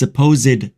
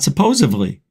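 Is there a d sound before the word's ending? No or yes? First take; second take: yes; no. First: A clear d sound comes before the ending. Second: A b or v sound replaces the d. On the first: The speaker calls it right. "It's supposedly. D D D" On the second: The speaker calls it wrong. "Not supposedly"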